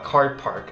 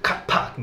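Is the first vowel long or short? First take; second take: long; short. First: The first vowel is long, American style. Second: The first vowel is short, Singaporean style. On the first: "アメリカ英語ではカーパークって言いますが" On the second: "ここの人はカパとか、そんな感じの"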